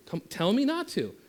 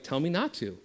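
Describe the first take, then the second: First: Teasing challenge. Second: Said in the usual way. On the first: Shown as a demonstration. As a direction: pitch jumps higher on the challenge. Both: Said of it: "I'm like".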